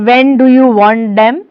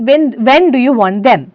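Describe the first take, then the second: First: Lightly imitated German accent. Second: Said in the usual way. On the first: Shown as a demonstration. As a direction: demonstrate a mild German accent. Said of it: "This is again a German accent". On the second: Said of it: "That means".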